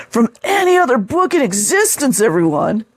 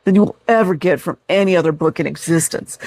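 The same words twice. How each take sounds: First: Higher, hammed-up gushing; over-the-top mock. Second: Said in the usual way. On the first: Shown as a demonstration. Mocking the reviewer's gushing, hammed up higher. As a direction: ham it up like a true believer. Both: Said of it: "See how they go over the top".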